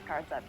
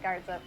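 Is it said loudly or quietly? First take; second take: quietly; loudly. First: It is said very quietly. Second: It is said at normal loudness.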